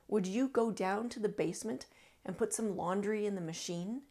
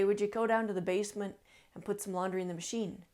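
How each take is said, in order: First: It is spoken slowly with strong consonants, longer vowels. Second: It is spoken quickly with less distinct consonants.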